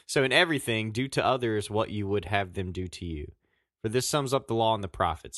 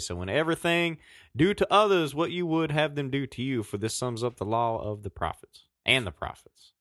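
First: It is read in his plain reading voice. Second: It is read like a hammering Southern Baptist preacher.

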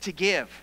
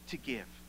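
First: It is said in a happy, bright tone. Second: It is said in a plain, even tone. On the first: "Now say it like you're joyful" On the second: "Say that with me"

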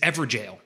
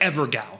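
First: The second part sounds like 'jail'. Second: The second part sounds like 'gow'. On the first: The speaker calls it right. "The way to pronounce it is Everjail" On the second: The speaker calls it wrong. "It looks like Ever Gao"

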